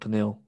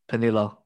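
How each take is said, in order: First: The name ends without a final vowel sound. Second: The name ends with a final vowel sound. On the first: The speaker calls it wrong. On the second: The speaker calls it right.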